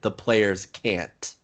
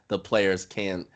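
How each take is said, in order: First: The final T of the last word is clearly heard. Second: The final T of the last word is dropped. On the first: The speaker calls it right. "put a little bit of emphasis on the T to make sure that we can hear it" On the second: The speaker calls it wrong. "or else it may sound like you're saying can two times"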